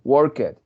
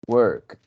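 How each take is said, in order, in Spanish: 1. El final es una sílaba extra, no una t simple. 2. El final es un solo sonido t. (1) "el error está en que muchos estudiantes... dicen" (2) "le ponemos un sonido de T"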